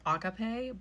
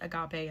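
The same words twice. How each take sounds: First: The stress is on the first syllable. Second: The stress is on the second syllable. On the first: "the guy in the Strong's like thing who like actually says the word to help you pronounce it said agape" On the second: "the little emphasis thing was on the ga part, not the ah"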